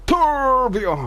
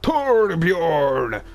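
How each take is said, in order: First: Much higher, louder shriek; calling out to Torbjorn again, louder. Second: Much higher, louder call; calling out to Torbjorn; mock shout. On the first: Acted. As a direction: shriek the name even harder. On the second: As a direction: bellow the name across the room. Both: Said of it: "we're not doing that again".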